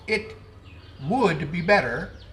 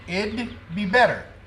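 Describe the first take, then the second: First: Every word is said in full. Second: The first two words are shortened into one. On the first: "a shortening for it would be better" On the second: "that's a shortening for it would be better"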